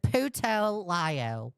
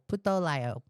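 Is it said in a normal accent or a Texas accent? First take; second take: Texas; normal. First: It is said in a put-on Texas accent. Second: It is said in the speaker's usual accent. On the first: "Should I say it in my Texas accent?" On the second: "Did I say it right?"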